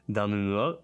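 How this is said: It is said with a French accent. The speaker calls it right. "And in French is"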